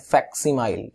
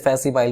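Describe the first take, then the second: First: A k sound is heard before the s. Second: The k sound before the s is dropped. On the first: The speaker calls it right. "किसी silent कर दो, इसे बोलते हैं फैक्सिमाइल" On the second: The speaker calls it wrong. "इसे फैसिमाइल मत बोलना"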